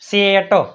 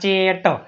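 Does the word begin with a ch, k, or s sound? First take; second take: s; ch. First: The word begins with an s sound. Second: The word begins with a ch sound. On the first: "કદી આપણે આમ વાંચ્યું" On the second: "અથવા"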